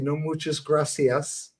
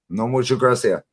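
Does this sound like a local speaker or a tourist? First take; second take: tourist; local. First: It is said in a careful tourist style. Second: It is said in a relaxed local style. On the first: The speaker is a visitor. The speaker calls it wrong. "they know you're giddy" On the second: The speaker lives there. The speaker calls it right. "they go, oh shit, he lives here"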